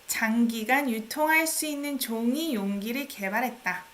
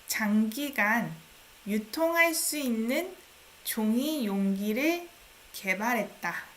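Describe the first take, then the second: First: It is read at a natural, quicker speed. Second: It is read at a slower, careful speed. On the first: "I read it in the just natural speed" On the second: "I'm gonna read a bit more slowly"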